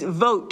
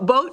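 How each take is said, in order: First: The word begins with a V sound. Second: The word begins with a B sound. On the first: The speaker calls it right. "It's vote" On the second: The speaker calls it wrong. "you heard me say boat"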